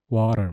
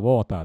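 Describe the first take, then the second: First: It is said with an English-style accent. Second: It is said with a Japanese-style accent. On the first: "英語で言ったらワーターみたいな" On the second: "日本語で言ったらウォーターだけど"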